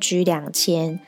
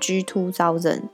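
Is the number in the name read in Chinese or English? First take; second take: Chinese; English. First: The number is read with Chinese numerals. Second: The number is read with English numerals. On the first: "大部分的人都会直接念G2000" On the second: "就是G 然后2000 的英文这样子"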